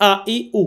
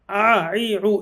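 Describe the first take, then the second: First: "আ ই উ" with a hard glottal onset on each vowel; firm hamza. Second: "আ ই উ" wrongly squeezed from the throat like Arabic ain; hamza as ain. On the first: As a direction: say "আ ই উ" firmly, as clean hamza sounds. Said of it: "শক্ত করে বলতে হবে". ("আ ই উ" শক্ত হামজার উচ্চারণে) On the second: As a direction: say "আ ই উ" with drawn-out ain sounds instead of hamza. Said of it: "এরকম বলা যাবে না". ("আ ই উ" হামজার জায়গায় আইনের মতো উচ্চারণ) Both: Shown as a demonstration.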